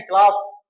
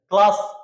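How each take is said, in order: First: "क्लास" again, louder, the final s still unheard; teacher repeats "क्लास" to show the missing plural; wrong plural demo. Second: "क्लास" said with the added s swallowed, no extra syllable; clipped "क्लास" showing the s gets lost; teacher shows "क्लास" fails as a plural; wrong plural demo. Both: Shown as a demonstration. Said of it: "pronunciation तो आया ही नहीं".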